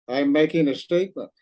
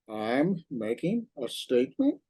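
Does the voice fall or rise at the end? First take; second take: fall; rise. First: The voice falls at the end. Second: The voice rises at the end. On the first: It is a statement. "a statement" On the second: It is a question. "like a question"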